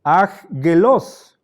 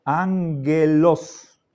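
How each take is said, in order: First: Aggelos with both g sounds as akgelos; wrongly sounded aggelos, akgelos, slowly drawn out; wrong pronunciation. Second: Ángelos said slowly, ang-gelos with an ng sound; slow model ángelos with ng; correct pronunciation. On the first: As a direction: say aggelos letter by letter, a hard k then g. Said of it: "En vez de pronunciar". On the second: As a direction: spell out ángelos slowly, n before the g. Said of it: "con letras cursivas la pronunciación". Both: Shown as a demonstration.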